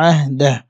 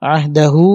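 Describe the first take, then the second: First: "আহদাহ" closed on a vowelless h; sukun stop. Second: "আহদাহু" ending on a drawn-out u; slow, stretch the last syllable of "আহদাহু"; long final vowel. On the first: Teacher shows pausing rule, "আহদাহ" ending in bare h. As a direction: drop the final u, stop on h in "আহদাহ". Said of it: "আমি সাকিন করছি". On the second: Teacher shows the original ending, "আহদাহু" drawn out. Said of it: "তিন আলিফ টান ছিল". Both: Shown as a demonstration.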